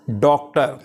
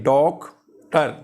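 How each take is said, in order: First: Said in the usual way. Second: doctor broken into two parts, डॉक, then टर; split into syllables. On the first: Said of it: "इसमें देखें doctor". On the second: Shown as a demonstration. Teacher showing learners two syllables, doctor split in two. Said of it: "यानी टू syllables हैं".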